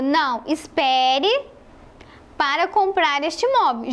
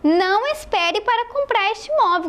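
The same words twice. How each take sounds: First: There is a pause after the first word. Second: There is no pause after the first word. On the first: Wait and do not buy the property. "Aqui nessa primeira frase, você está falando para a pessoa esperar e não comprar o imóvel" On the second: Buy the property right away. "Já sem a vírgula"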